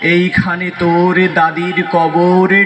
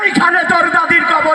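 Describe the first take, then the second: First: It is recited in a natural, serious manner. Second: It is declaimed loudly like a political speech. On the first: An ordinary reciter is speaking. "উনি naturally কবিতা আবৃত্তি করেন" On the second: A local political leader is speaking. "উনি নাকি স্থানীয় নেতা"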